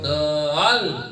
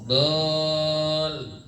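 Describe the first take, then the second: First: The consonant is pressed hard and exaggerated. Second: The consonant is pressed only slightly. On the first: The speaker calls it wrong. "nggak sampai dol" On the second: The speaker calls it right. "ada tekanannya sedikit"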